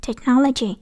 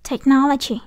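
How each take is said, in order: Both takes have the same delivery.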